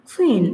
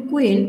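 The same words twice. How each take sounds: First: "কুইন" said as khuin, puff after K; breathy burst opening "কুইন"; aspirated K. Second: Said in the usual way. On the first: Shown as a demonstration. ("কুইন"-এর ক-কে খ-এর মতো মহাপ্রাণ) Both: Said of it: "সঠিক উচ্চারণ হবে".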